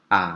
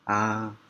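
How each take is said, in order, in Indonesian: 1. Diucapkan dengan nada ketiga. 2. Diucapkan dengan nada pertama. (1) "Yang ketiga A" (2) "Yang pertama A"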